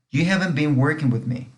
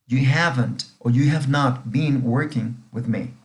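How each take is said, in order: First: Said in the usual way. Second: Slow, careful English example, each word clear; slow model reading. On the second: Shown as a demonstration. Teacher repeating the example sentence slowly for students. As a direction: spell it out slowly for the class. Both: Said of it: "esta frase dice".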